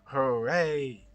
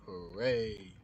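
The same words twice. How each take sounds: First: Big, loud hooray with extra voice; overdone celebratory shout; loud hammed-up cheer. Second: A bright little cheer; playful hooray; mock cheer. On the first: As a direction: put more voice into the cheer. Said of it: "put some more voice into this". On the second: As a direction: cheer it like a kid. Mock cheer while modelling.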